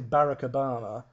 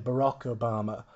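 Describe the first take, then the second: First: The name is said the British way. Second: The name is said the American way. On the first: "We say" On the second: "you say"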